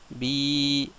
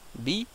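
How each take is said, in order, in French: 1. La voyelle est longue, tenue pendant deux temps. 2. La voyelle est courte, tenue pendant un temps. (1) "Pareil pour le bi" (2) "au lieu que ça fasse bi"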